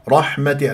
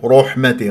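First: The heavy r is said with unrounded lips. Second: The heavy r is said with rounded lips. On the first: The speaker calls it right. "الراء مفخمة مفتوحة لا تكور الشفاء" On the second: The speaker calls it wrong. "رو رحمتي غلط"

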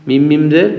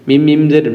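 No difference in how they are said.

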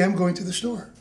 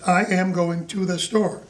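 First: The words "I am" are contracted to "I'm". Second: The words "I am" are said in full. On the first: The speaker calls it right. "They say" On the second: The speaker calls it wrong. "But people don't say that"

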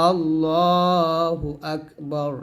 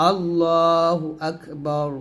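The two takes are said the same way.

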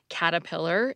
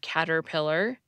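First: The first R sound is dropped. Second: The first R sound is pronounced. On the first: "caterpillar instead of" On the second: "instead of caterpillar"

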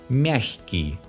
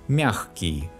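First: The middle sound is a soft х. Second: The middle sound is a hard х. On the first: "When the sound к is soft, the letter г specifies a soft sound х" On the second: "some Russians pronounce a hard sound х here"

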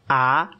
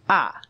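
First: The pitch rises from middle to high. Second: The pitch falls sharply from high.

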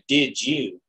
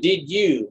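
First: The words blend so 'you' sounds like 'jew'. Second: The 'you' starts with a clear Y sound. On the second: "with a Y"

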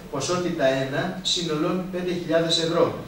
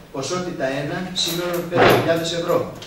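No difference in how they are said.

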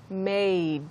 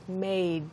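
No difference in how they are said.

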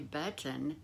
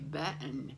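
First: The T in the middle is clearly pronounced. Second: The T in the middle is dropped. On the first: The speaker calls it right. "They don't say button" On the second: The speaker calls it wrong. "they drop the T in words"

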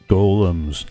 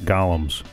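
First: The word is said as the creature golems. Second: The word is said like the character Gollum. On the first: The speaker calls it right. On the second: The speaker calls it wrong. "not golems. Golem is what follows your party looking for a ring"

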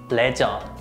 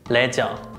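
First: It is said with Korean pronunciation. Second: It is said with Korean pronunciation.

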